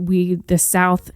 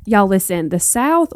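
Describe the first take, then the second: First: Said in the usual way. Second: Playful Southern accent with a lifted "the South". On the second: Shown as a demonstration. North Carolina host hamming up her Southern accent for listeners. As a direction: lean into a Southern twang on "y'all" and "the South". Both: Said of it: "my Southern accent's not that great".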